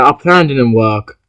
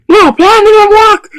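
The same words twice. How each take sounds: First: Said in the usual way. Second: High, loud wail over the failed plan; frustrated shout. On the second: Pretend. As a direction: shout the letdown at the top of the voice. Toy play, plan fails.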